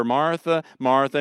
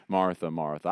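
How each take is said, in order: First: Higher, louder, a gentle reproach; Jesus gently rebuking Martha; subtle rebuke. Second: Jesus tenderly addressing his friend Martha. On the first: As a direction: call her name to pull her up short. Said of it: "we're probably about to receive a subtle rebuke". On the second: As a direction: say her name with love. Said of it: "I hear tenderness when he says it". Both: Retold or imitated.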